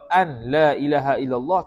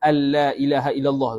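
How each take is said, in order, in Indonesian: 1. Bunyi n dibaca terpisah sebelum bunyi l. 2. Bunyi n menyatu dengan bunyi l setelahnya. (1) "tidak sah" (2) "kalau idgham"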